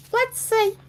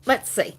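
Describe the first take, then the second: First: "Let's see" popped up very high and a bit louder; playful squeak. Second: Said in the usual way. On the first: Pretend. Host to viewers, repeating "Let's see" in a high squeak. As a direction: squeak the words up high for fun.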